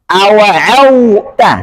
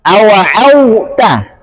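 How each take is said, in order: No difference in how they are said.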